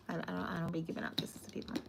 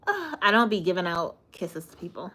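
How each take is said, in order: First: Breathy whispered repeat, fast. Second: Said in the usual way. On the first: Acted. Turning down kisses from chat, in a whisper. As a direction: whisper it like a secret aside. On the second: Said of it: "repeats the line in a whisper".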